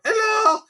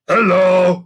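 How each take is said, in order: First: Very high squeaky hello; chirpy hello. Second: Louder, higher cheerful goblin; chirpy hello. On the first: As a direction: greet her with a bright squeak. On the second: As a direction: greet her brightly. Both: Acted. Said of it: "waved Sniff chirpily".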